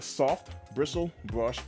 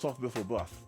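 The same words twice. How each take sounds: First: The phrase is said slowly with each word clear. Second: The phrase is said quickly and comes out slurred.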